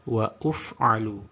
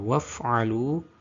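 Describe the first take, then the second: First: An extra 'u' vowel is inserted after 'wa'. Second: No vowel is inserted after 'wa'. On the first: The speaker calls it wrong. "karena menganggap tanda hamzah wasol kepalanya shod itu sebagai dhammah" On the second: The speaker calls it right. "Yang aslinya harus dibaca waf'alu"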